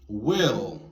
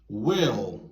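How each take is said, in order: No difference in how they are said.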